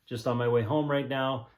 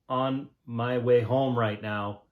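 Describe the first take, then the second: First: It is said in a relaxed, natural way. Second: It is said in a stiff, awkward way. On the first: The speaker calls it right. "That's not the way it sounded" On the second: The speaker calls it wrong. "when I first started, I was like"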